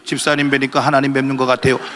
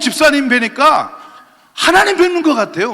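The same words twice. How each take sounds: First: It is said flatly, with no emotion. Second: It is said warmly, full of emotion. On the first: The greeting feels empty and insincere. The speaker calls it wrong. "아무런 감정도 없이" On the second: The greeting feels heartfelt and uplifting. The speaker calls it right. "이렇게 좀 감정을 넣어서"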